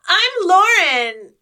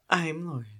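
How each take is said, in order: First: It is said in a peppy, showy, kid-performer way. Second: It is said in a calm, serious, plain way.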